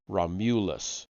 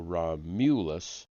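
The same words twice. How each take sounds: First: The stress is not on the second syllable. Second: The stress is on the second syllable. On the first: The speaker calls it wrong. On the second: The speaker calls it right. "with the accent on the second syllable"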